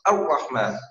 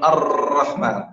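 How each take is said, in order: First: The r is held with no trill at all. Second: The r is trilled with many repeated taps. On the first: "ولا نمنعه، فلا نقول" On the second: "لا يكون الرحمن"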